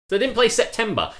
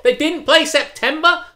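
First: High, loud disbelief; outraged. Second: Higher, louder, slower, stretched out; more outraged. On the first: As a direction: sound indignant at the song choice. Outraged about the disco playlist. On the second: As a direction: lean right into the indignation. Repeats the outrage, bigger. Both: Real, not acted.

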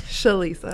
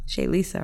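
First: Shalisa said as one word, stress on lis; correct name. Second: Shay Lisa split into two words, stress on Lisa; mispronounced name. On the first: Shown as a demonstration. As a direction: say Shalisa smoothly as one word, shuh-LEE-suh. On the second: Real, not acted.

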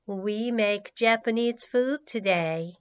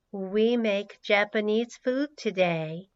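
The two takes are said the same way.

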